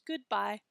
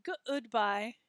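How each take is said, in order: First: GOODBYE as good-bye, good in one beat; two-syllable goodbye. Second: GOODBYE broken as guh-ood-bye; three-syllable goodbye. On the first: Teacher shows the normal way, goodbye in two syllables. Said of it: "say that with two syllables". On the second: Teacher mimics someone saying it oddly, goodbye in three syllables. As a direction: stretch good in goodbye over two syllables. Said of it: "wouldn't sound quite right". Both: Shown as a demonstration.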